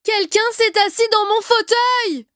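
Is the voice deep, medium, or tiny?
medium. It is said in a medium voice.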